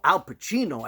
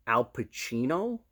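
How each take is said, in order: First: "Al Pacino" higher, loud, falling at the end; emphatic AL PACINO. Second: "Al Pacino" drawn out slowly, rising at the end; questioning AL PACINO. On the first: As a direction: declare "Al Pacino" forcefully with a falling tune. Retold emphatic answer. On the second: Retold questioning of the name. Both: Retold or imitated.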